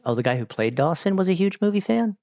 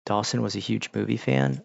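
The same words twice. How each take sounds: First: "huge movie fan" climbing high as a question; surprised question, lifting steadily to a high "fan"; questioning echo. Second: Said in the usual way. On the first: Real, not acted. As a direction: repeat it as a query, pitch rising through "fan". Same words turned into a question.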